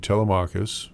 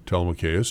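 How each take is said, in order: First: Telemachus with an "ah" in MACH; Telemachus, third syllable like "mock"; first pronunciation variant. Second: Telemachus with an "ay" in MACH; Telemachus, third syllable like "make"; alternative pronunciation. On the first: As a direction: say Telemachus ending "mah-kus". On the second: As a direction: say Telemachus ending "may-kus". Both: Shown as a demonstration. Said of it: "which way of the ledger you like to pronounce that".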